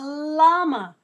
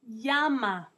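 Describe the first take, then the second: First: The word begins with an L sound. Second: The word begins with a Y sound. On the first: "in English we call it a llama" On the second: "in Spanish his real name is llama"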